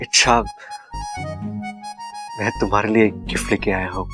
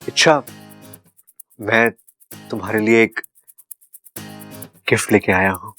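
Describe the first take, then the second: First: It is said lovingly and romantically. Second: It is said timidly and fearfully.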